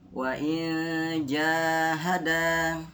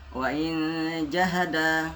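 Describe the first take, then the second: First: The vowel is held long for two beats. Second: The vowel is cut short and rushed. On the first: The speaker calls it right. "punya panjang dua harokat" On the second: The speaker calls it wrong. "tidak boleh bablas aja"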